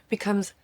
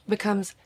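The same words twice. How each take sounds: The two takes are said the same way.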